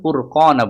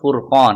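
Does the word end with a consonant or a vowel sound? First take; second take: vowel; consonant. First: The word ends with an added vowel a. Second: The word ends on the consonant n. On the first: The reading continues into the next word. "মিলিয়ে পড়লে ফুরকানা বলবো" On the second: The reading stops at this word. "থামলে হবে ফুরকান"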